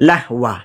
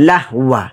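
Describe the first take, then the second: Both takes have the same delivery.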